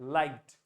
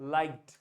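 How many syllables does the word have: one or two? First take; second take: one; one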